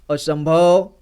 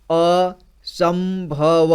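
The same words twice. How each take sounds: First: Said in the usual way. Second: असंभव stretched very slowly, each syllable apart. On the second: Shown as a demonstration. Teacher demonstrating how to read long words, very slow syllable by syllable. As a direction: spell out असंभव slowly so a child can follow. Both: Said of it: "एक एक जोड़ करके इसी तरह से पढ़ना है".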